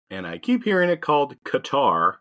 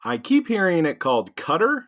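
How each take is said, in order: First: Qatar said "kuh-TAR", stress on the end. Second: Qatar said "KUT-er", stress on first syllable; Qatar said as cutter. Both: Shown as a demonstration.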